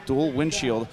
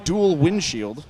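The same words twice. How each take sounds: First: Said in the usual way. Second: "dual windshield" said slowly, pitched up and louder; stressed correction. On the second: Shown as a demonstration. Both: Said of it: "not dual cowl".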